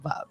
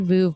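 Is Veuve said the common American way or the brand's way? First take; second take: brand's; American. First: The word is said the brand's own way. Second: The word is said the common American way. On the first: The speaker calls it right. "they will tell you it is, in fact, Veuve" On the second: The speaker calls it wrong. "In America, a lot of people say Veuve"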